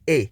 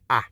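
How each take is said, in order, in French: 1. La voyelle se prononce comme le nom de la lettre. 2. La voyelle est un son bref et sec. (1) "Long A is A" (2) "Short A is A"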